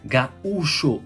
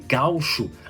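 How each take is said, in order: First: The a and u fall in separate syllables. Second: The a and u merge into one syllable. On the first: The speaker calls it right. "o U está sozinho na sílaba" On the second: The speaker calls it wrong. "aí seria um ditongo"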